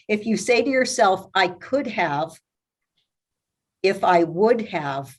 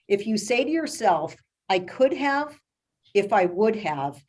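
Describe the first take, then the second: First: It is said at a noticeably slower pace. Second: It is said at a normal conversational pace.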